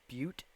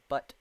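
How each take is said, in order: First: The name rhymes with the word 'cute'. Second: The name rhymes with the word 'but'. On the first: This may be the proper way to say it. "I don't know if that's that's pronounced Butte" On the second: This is a joking way to say it. "I'm gonna pronounce it Butt"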